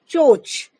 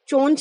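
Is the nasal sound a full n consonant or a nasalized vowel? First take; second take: nasalized vowel; full n. First: The vowel is nasalized with no n consonant. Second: It has a full n consonant before ch. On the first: The speaker calls it right. "यहाँ पर अनुनासिक की ध्वनि आ रही है" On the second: The speaker calls it wrong. "चोंच नहीं है"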